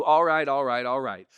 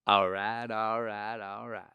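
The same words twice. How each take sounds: First: Said in the usual way. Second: Matthew McConaughey. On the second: Shown as a demonstration. Showing the one word, three times, laid-back drawl impression. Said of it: "With McConaughey, it's one word three times".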